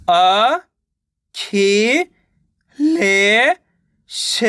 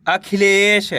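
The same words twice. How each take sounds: First: "अ, खी, ले, श" separately with pauses; teacher's broken-up "अ, खी, ले, श"; sounding out syllables. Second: Said in the usual way. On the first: Shown as a demonstration. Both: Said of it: "direct मात्रा का उच्चारण करके".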